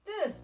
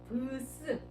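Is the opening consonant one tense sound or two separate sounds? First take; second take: one sound; two sounds. First: The opening consonant is one tense sound. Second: The opening consonants are two separate sounds. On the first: The cluster is read as a tense consonant. "된소리라고 생각하면 얘는 끝, 뜻, 뜻 이렇게 발음했습니다" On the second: Each letter of the cluster is pronounced. "각각 발음해줬어. 브스 이렇게"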